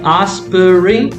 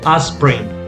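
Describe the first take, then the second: First: All three syllables are pronounced in full. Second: The middle syllable is dropped, leaving two. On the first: "Instead of say aspirin" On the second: "people usually say aspirin"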